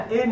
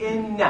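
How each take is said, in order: First: ان said an, no kasra, single n; ان said short as an, the form to avoid; wrong an. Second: ان said inna, kasra and doubled n; ان as inna, not an; correct inna. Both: Shown as a demonstration. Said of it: "ان نگید".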